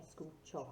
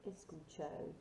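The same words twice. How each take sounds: First: "escucho" ending in a short, pure Spanish O; short sharp O. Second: "escucho" ending in a long English "oh"; students' mispronounced O. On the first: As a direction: say "escucho" with the final O cut short. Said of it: "sharp O sound at the end". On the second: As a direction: say "escucho" with a drawn-out anglicised O at the end. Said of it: "often I hear students say escucho". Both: Shown as a demonstration.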